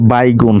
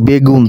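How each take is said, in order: First: The first syllable has an 'ai' vowel. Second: The first syllable has a plain 'e' vowel. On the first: This is the Barishal dialect form. "বরিশালের ভাষায় বলে বাইগুন" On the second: This is the standard Bengali form. "এই যে দেখতে পাইতেছেন বেগুন"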